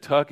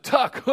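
First: Said in the usual way. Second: "Tuck?" rising sharply high in disbelief; incredulous question. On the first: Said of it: "And he said". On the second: Retold or imitated. Drummer hearing the odd name, a high amused "Tuck?". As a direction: echo "Tuck?" high, tickled and unbelieving. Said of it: "He said".

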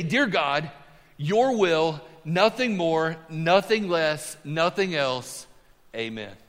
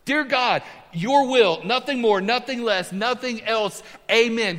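First: Reverent prayer. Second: Higher and louder, each phrase ringing out; bold prayer. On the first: Pastor voicing Bobby Richardson's humble prayer, slow and hushed. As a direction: pray it humbly, letting each phrase settle. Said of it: "This is what he used to pray". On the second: Pastor repeating the prayer to the church, high and ringing. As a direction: proclaim it to the congregation with conviction. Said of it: "Pretty simple". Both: Shown as a demonstration.

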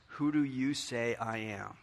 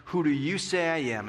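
First: Softer, slow and grave; solemn question. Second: Said in the usual way. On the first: Acted. Pastor poses Jesus' question softly to everyone. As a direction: ask it gently, let it land.

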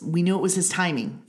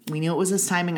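First: Knew leaned on, falling; stress on knew. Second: His leaned on, falling; his carries the weight; stress on his. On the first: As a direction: lean on the word knew. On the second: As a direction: lean on the word his. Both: Shown as a demonstration.

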